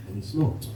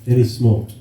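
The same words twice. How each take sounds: First: Dropped much softer for the last repeat; softer punchline. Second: Said in the usual way. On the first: Shown as a demonstration. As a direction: let the last "smoked" fall away softly.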